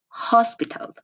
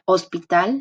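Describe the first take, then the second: First: It starts with a breathy h sound. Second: It starts directly with a vowel sound. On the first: The speaker calls it right. "but no, in English it's hospital" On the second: The speaker calls it wrong. "we tend to think that it's like hospital, like O sound"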